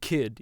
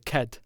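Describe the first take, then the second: First: The vowel is a plain short i sound. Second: The vowel sounds close to an e sound. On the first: The speaker calls it wrong. "you don't say kid" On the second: The speaker calls it right. "if there's an I, it's basically an E"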